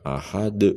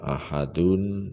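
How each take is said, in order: First: The word stops on a bouncing final d. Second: The word ends with a full -un ending.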